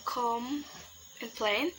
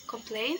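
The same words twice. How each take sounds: First: "complain" split by a clear pause after com; broken into syllables. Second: Said in the usual way. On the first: Shown as a demonstration. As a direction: say "complain" as two separate syllables. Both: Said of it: "the syllable is".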